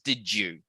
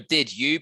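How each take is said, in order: First: The d and y merge into a j sound. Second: The d and y are said separately.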